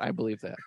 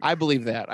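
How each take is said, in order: First: Much softer under the breath; quiet aside. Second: Said in the usual way. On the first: Real, not acted. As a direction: murmur it to yourself. Deadpan repeat of reply.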